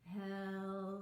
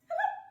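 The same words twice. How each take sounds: First: It is said very slowly. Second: It is said very fast.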